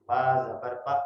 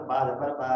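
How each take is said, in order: First: با زبر با with a short clipped a; the correct short با; short vowel. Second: با زبر با with the a wrongly stretched; the wrong long با; wrong long vowel. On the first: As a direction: say با زبر با with a quick short zabar. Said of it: "بہت short sound ہونی چاہیے". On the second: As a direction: drag the با out long, the common mistake. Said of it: "ایسے پڑھ رہے ہوتے ہیں". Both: Shown as a demonstration.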